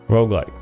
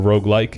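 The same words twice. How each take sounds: First: The word's ending fades out softly. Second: The word ends with a clear final sound. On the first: "You kind of just fade it out" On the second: "instead of roguelite or roguelike"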